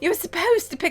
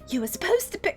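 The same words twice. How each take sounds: First: It is said in a put-on British accent. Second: It is said in the speaker's ordinary accent.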